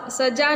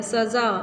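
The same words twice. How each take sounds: First: सजा with a plain ज sound, not ज़; wrong plain ज. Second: सज़ा with a buzzing z sound; right nukta ज़. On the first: Teacher showing the wrong way, hard ज. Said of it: "सजा नहीं बोलते हैं". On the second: Teacher showing the right nukta sound, buzzing z. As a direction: say सज़ा with ज़ like English z. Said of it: "जा जो आता है उसमें हम ये बिंदी ऐसे रखते हैं". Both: Shown as a demonstration.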